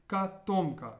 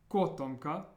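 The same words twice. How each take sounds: First: "katomka" said slowly as ka-TOM-ka; ah first, then punch the O of TOM in "katomka"; stress on second O. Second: "kotomka" with a full O, stressed as KO-tomka; wrong first-syllable stress. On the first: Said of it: "It's on the o". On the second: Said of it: "katomka isn't kotomka". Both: Shown as a demonstration.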